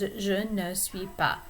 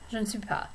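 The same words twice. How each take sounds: First: The phrase is said slowly with each word clear. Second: The phrase is said quickly and run together. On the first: "For now, you can practice it as" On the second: "It's a little bit faster"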